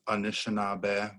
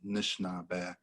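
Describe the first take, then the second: First: It is said in the Ojibwe and Odawa way. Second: It is said in the Potawatomi way. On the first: This is how the Ojibwe and Odawa name themselves. "They say Anishinaabe" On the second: This is how the Potawatomi name themselves. "we consider ourselves Nishnaabe people"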